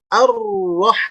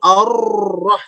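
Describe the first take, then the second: First: The r is clearly trilled at its start. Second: The r is barely heard, without a trill. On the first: The speaker calls it right. "getarannya ada di awal" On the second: The speaker calls it wrong. "tidak terdengar huruf rohnya"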